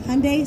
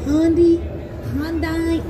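First: The ending sounds like 'Sunday'. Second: The ending does not sound like 'Sunday'. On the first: The speaker calls it right. "Hyundai is the way, like Hyundai, Sunday, Funday" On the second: The speaker calls it wrong. "Anything else you hear? Hyundai, all of that? Incorrect"

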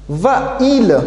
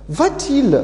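First: The two vowels meet with no t between. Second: A t sound separates the two vowels. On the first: The speaker calls it wrong. "et une voyelle côte à côte" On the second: The speaker calls it right. "On va mettre T pour séparer les deux voyelles"

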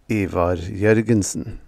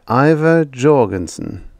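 First: The name is said with its original sounds. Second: The name is said with everyday English sounds.

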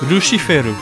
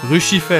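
First: The name ends in an added RU syllable. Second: The name ends in a final L sound.

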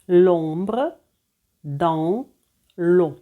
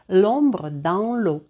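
First: The phrase is said at a slow pace. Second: The phrase is said at a fast pace.

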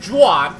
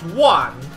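First: It begins with an English J sound. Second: It begins without a J sound, more like H. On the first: The speaker calls it wrong. "It's not pronounced Juan" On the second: The speaker calls it right. "it's pronounced Juan. So the J is silent"

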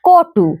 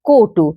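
First: The first vowel is an open aw sound. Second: The first vowel is a closed o sound. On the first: "আসলে বানানটা কটু" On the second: "কিন্তু বলছি কটু"

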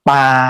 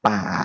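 First: The pitch stays level in the middle range. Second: The pitch is low and drops down. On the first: "เสียงสามัญ" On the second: "เสียงเอกต่ำลงมานะเสียงต่ำลงมา"

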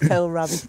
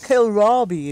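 First: It is said the northern English way. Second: It is said the southern English way. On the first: "If you're in the north, it's Kohlrabi" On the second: "Or Kohlrabi, if you're ... In the south"

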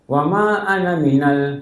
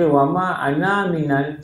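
First: The last vowel of 'ana' is short. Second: The last vowel of 'ana' is drawn out long. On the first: The speaker calls it right. "Ini tak baca panjang" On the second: The speaker calls it wrong. "Bukan baca wama ana minal. Salah"

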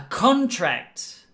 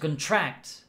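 First: The stress is on the first syllable. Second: The stress is on the second syllable. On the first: It is a noun: a business agreement. "the accent is on the first part" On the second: It is a verb: to catch or get something. "When it's a verb, to contract, it's the last part"

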